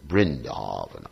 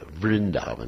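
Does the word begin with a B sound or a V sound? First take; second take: B; V. First: The word begins with a B sound. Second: The word begins with a V sound. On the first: "he said Vrindavana" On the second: "Instead of Vrindavana"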